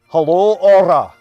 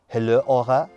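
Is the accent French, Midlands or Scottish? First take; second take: Scottish; French. First: It is said in a Scottish accent. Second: It is said in a French accent.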